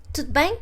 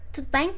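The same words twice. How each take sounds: The two takes are said the same way.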